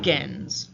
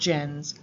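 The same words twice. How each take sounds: First: The G is hard, as in go. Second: The G is soft, like a J. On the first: The speaker calls it right. "That hard G" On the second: The speaker calls it wrong. "Not gens"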